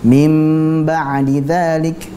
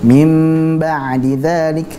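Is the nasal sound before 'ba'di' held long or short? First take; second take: long; long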